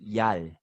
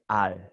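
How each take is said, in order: First: The word starts with a y sound. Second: The word starts directly with a vowel. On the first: The speaker calls it wrong. "you pronounce this al as yal" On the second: The speaker calls it right. "but it's al"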